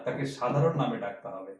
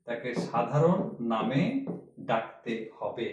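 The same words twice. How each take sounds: First: Said in the usual way. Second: "সাধারণ নামে" said slowly, each word weighed; slow emphatic repeat. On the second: Shown as a demonstration. Teacher repeating the rule to students, slow and emphatic. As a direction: drive home "সাধারণ" slowly.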